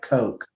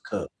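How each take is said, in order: First: The vowel is a long 'oh' sound. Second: The vowel is a short 'oo' sound. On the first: The speaker calls it wrong. "It's spelled C O K E, like Coke" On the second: The speaker calls it right. "but it's pronounced Cook"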